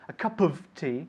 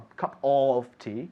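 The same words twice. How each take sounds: First: The 'of' is reduced and linked quickly. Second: The 'of' is said in full, separately. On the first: The speaker calls it right. "when we say it quickly" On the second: The speaker calls it wrong.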